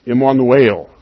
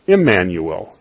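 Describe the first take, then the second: First: "Emmanuel." said the Hebrew way, ih-mah-noo-EL, louder; Hebrew pronunciation. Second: "Emmanuel." said the English way, ih-MAN-yoo-el; plain English "Emmanuel." with the -yoo- glide; anglicized pronunciation. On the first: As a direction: open Hebrew "Emmanuel." with broad ah and a stressed final el. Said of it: "In Hebrew, it's pronounced". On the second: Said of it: "is anglicized from a Hebrew word". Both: Shown as a demonstration.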